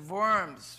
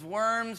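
First: It is said with a German accent. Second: It is said with an English pronunciation. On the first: "in a cool German accent" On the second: "We say that in English as Worms"

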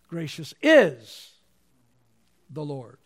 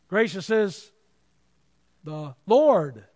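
First: The word "is" carries the main stress. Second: The word "Lord" carries the main stress. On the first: God is gracious right now. "Presently, God is gracious" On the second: The particular word for Lord matters. "there's a lot of words for Lord"

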